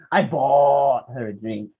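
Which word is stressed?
bought. The stress falls on the word bought. The drink was paid for, not obtained another way. "how did you get the drink?"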